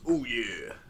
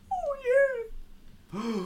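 First: It is said in a crunchy rocker voice. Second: It is said without the rocker crunch.

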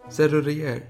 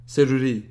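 First: The word does not end in a clear 'ri'. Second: The word ends in a clear 'ri'. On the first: The speaker calls it wrong. "Nej, det är underkänt" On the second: The speaker calls it right. "Ri borde jag ha tagit"

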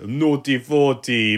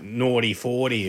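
First: It is said in a Jamaican accent. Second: It is said in an Australian accent.

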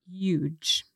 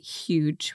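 First: The word begins without any H sound. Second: The word begins with an audible H sound. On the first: "with a silent H in there" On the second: "We can hear the H, the H sound"

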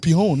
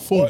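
First: The word starts with separate p and h sounds. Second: The word starts with an f sound. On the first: This is how the spelling suggests it should sound. "It should be pihon" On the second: This is how the word is normally said. "not phone"

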